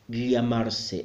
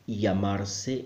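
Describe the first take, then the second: First: The double L is a different, harder sound. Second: The double L sounds like a Y. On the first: This is how a minority of speakers say it. "a very difficult sound for me" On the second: This is how most speakers say it. "pronounce the double L as a Y sound"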